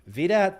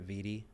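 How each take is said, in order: First: The name ends with a 'dat' syllable. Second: The name ends with a 'dee' sound. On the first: It sounds like a cool street nickname. "why you say V DAT" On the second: It sounds like an old lady's name. "if you pronounce it right"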